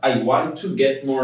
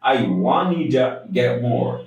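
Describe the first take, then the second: First: The word 'to' is said fully as 'too'. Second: The word 'to' is reduced to 'da'. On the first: The speaker calls it wrong. "I want টু get more না হয়ে" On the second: The speaker calls it right. "হবে I want ইটা get more"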